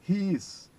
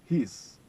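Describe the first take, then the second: First: Two separate words are said in full. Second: The words merge into one short syllable.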